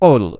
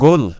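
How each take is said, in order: First: The word begins with a deep q sound. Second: The word begins with a hard g sound. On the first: This is the standard form of the word. "Main শব্দের অর্থ ওল" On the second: This is the regional dialect form of the word. "আঞ্চলিক আরবিতে যেহেতু কাফকে গাফ উচ্চারণ করা হয়"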